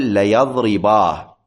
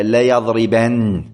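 First: ليضربا ending on a long a instead of the nun, said slowly; correct pausal alif. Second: ليضربن ending on a plain n sound, said slowly as the wrong form. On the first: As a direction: stop on ليضربا with a drawn-out final alif. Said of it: "أقول". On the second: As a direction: give ليضربن a final n to show the error. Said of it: "لا، أقول". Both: Shown as a demonstration.

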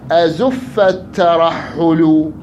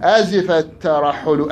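First: Azifa misread as "azuf", very slow; misread vowel in azifa. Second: Azifa with a clear "i"; corrected vowel in azifa. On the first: Teacher reciting a verse for students, misreading azifa as "azuf". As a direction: recite it slowly with "u" in place of "i" in azifa. أزف. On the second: Teacher repeating the verse after a student's correction, "i" in azifa. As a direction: recite it slowly, saying "i" in azifa. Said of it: "بلي، أزف، أحسنت". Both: Real, not acted.

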